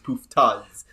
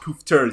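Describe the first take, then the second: First: The word ends in an 'ah' sound. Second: The word ends in an 'er' sound. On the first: The speaker calls it right. "that's with an A at the end" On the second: The speaker calls it wrong. "it's not er. It's not Poofters"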